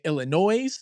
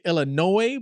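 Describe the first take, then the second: First: The final S is pronounced. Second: The final S is silent. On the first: The speaker calls it wrong. "I've been pronouncing it Illinois" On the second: The speaker calls it right. "I guess you pronounce it Illinois"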